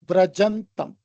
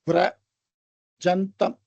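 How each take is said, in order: First: The word is said smoothly without any pause. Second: The word is broken with a pause after vira. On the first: The speaker calls it right. "ஒரே அடியா அதை படிக்கணும்" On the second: The speaker calls it wrong. "விரஜந்தம்னு பிடிக்க கூடாது"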